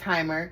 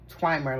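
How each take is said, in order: First: The word starts with a plain t sound. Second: The word starts with a tw sound. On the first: "I'm saying timer" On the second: "with a W in it"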